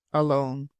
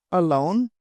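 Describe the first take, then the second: First: "Alone" low and level, as a statement; confirming. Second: "Alone" with a rising question tune. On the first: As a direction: answer "Alone" without any questioning lift. Answer confirming the question. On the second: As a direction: ask "Alone" with the voice lifting at the end. Question echoed by the answer. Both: A narrator's reading.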